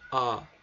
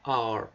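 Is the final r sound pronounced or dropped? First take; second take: dropped; pronounced. First: A long vowel with no r sound at all. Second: The vowel ends with a strong, drawn-out r sound. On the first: "Eles não falam R, eles falam A, tá? A" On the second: "Os americanos pronunciam R dessa forma, né? R, puxando o R"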